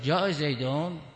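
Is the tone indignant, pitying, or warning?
indignant. It sounds indignant, questioning why he came. Why did he come? "یعنی چرا آمده"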